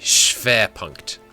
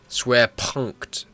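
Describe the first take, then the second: First: The W is said as a V. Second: The W is said as an English W. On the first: The speaker calls it right. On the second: The speaker calls it wrong.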